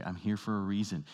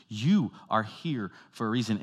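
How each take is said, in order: First: Said in the usual way. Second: "You" lifted and stressed. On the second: Shown as a demonstration. Preacher turning the line onto the congregation, stress on "You". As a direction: point at them with "You".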